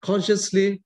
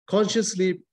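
The two takes are said the same way.

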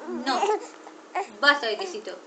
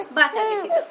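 First: Lower, settled and firm; low final word on basta. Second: Higher and louder, a sharp no; raised, exasperated stop; firm no. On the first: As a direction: drop the voice and lay down the rule. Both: Real, not acted. Mother refusing cheese twice.

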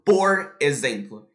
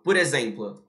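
First: POR and EXEMPLO said as two separate, slow words; words kept separate. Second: "por exemplo" run together as one word, "porexemplo"; linked words. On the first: Teacher showing how we don't say it, "por exemplo" slowly separated. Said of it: "eu não falo". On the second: Teacher showing how he really says it, "por exemplo" linked. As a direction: link POR straight into EXEMPLO. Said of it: "Eu falo". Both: Shown as a demonstration.

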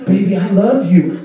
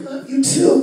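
First: Mock lover. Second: High-pitched answering lover; reply higher, as the other lover; mock partner. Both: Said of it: "you're just like".

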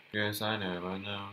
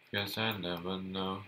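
No difference in how they are said.

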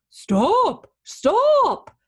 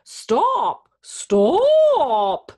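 First: High, loud hound's bark of a word. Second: High, loud cow moo on a word. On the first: Dozing hound sees the runaway, barking out. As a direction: bark it out in two bursts. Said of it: "the hound barked". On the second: Cow calls after the runaway, mooing. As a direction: stretch the second word into a long moo. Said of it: "the cow mooed". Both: A narrator's reading.

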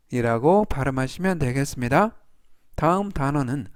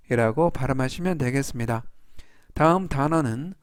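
Both takes have the same delivery.

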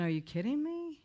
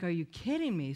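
First: Higher, incredulous retold reaction; stunned disbelief. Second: Said in the usual way. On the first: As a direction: ask it as if you can't believe your ears. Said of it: "And I'm thinking". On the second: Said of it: "I'm looking at him like".

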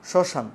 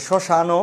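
First: শ্মশান ending on n; no vowel after the n of শ্মশান; silent final vowel. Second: শ্মশান as shoshano, o sounded; added final vowel. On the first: Teacher asking students to notice, শ্মশান without a final o. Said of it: "স্বর এর উচ্চারণ নাই". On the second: Teacher supposing the vowel were there, শ্মশান ending in o. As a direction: add a clear o to the end of শ্মশান. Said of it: "স্বর এর উচ্চারণ থাকতো". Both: Shown as a demonstration.

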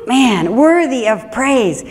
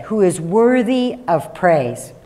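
First: Delighted savoring. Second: Said in the usual way. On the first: Shown as a demonstration. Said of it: "I love that phrase". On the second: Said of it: "I love this phrase".

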